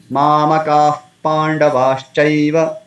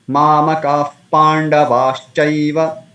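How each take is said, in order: No difference in how they are said.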